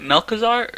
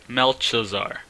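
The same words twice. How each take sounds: First: "Melkazar" said with a hard k in the middle; hard K pronunciation. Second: "Melchizar" said with ch as in chin; CH pronunciation. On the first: Reviewer trying out a card name, "Melkazar" with a k sound. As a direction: pronounce "Melkazar" as mel-kuh-zar. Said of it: "is it Melkazar or Melchizar". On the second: Reviewer weighing the other reading, "Melchizar" with a ch sound. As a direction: pronounce "Melchizar" as mel-chuh-zar. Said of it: "I'm gonna say Melchizar". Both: Shown as a demonstration.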